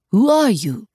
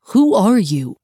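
First: Put-on French-accented challenge, rising pitch; testy Frenchman's question; challenging French accent. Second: Loud, firm demand. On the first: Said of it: "looked up challengingly at Barry". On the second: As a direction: demand to know who it is. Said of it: "he demanded". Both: A narrator's reading.

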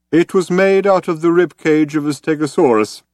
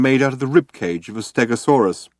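First: Put-on higher, louder character voice of an old man; old man explaining. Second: Said in the usual way. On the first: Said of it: "explained the old man".

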